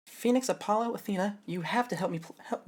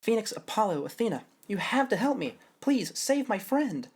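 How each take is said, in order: First: Higher, half-hearted plea; a plea that misses the tune; first try, wrong intonation. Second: Pleading plea. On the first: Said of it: "no, that's not it". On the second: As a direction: beg them, slowing on save my friend. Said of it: "That's not even the right intonation". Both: Shown as a demonstration.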